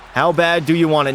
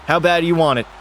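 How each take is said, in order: First: "you" hit hardest, falling at the end; stress on you. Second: "bad" hit hardest, falling at the end; stress on bad. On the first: Goalie challenging himself, stress on "you". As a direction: push the word "you" at yourself. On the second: Goalie pumping himself up, stress on "bad". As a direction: lean into the word "bad". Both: Shown as a demonstration. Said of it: "repeats the line with new stress".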